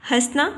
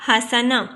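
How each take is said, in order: First: "حسنا" as hasna, no vowel after the s; wrong pronunciation. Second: "حسنا" as hasana, a after the s; correct pronunciation. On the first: Teacher shows students the faulty reading, "حسنا" said as has-na. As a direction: say "حسنا" in two syllables, has-na. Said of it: "سین کے اوپر جزم نہیں آتی". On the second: Teacher gives students the correct reading, "حسنا" said as ha-sa-na. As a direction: say "حسنا" in three syllables, ha-sa-na. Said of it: "زبر کی علامت لگائی جاتی ہے". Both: Shown as a demonstration.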